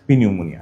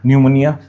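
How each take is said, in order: First: It begins with a p before the n. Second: It begins with an n sound.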